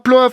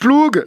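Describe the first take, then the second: First: The word ends with an f sound. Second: The word ends with a hard g sound. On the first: "ça se prononcera plof. Eh ben pas du tout" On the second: "Donc ploug"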